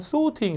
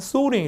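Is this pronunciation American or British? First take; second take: British; American. First: The R is dropped and the T is strong. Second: The R is strong and the T is soft. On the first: "영국 가시면 또 R 발음이 안 되고 T를 세게 하기 때문에 약간 sorting 이렇게 돼요" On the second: "미국 사람들은 R 발음을 세게 발음하기 때문에 뒤에 있는 T 발음이 잘 안 들려요 ... 약간 sorting 이렇게 흘려주고요"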